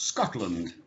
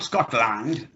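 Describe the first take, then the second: First: The second syllable is reduced to a schwa. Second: The second syllable has a full, clear vowel. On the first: The speaker calls it right. "it's Scotland" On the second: The speaker calls it wrong. "not Scotland"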